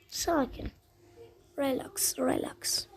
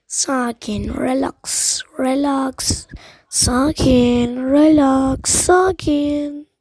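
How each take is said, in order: First: Soft, subdued self-soothing; calming down. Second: Drawn-out words building to loud; tense calming chant that swells louder; forced self-calming. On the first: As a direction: talk yourself down quietly. Settles down after loud self-calming. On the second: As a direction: loudly order yourself to relax, stretching each word. Gamer forcing himself to calm down. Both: Real, not acted.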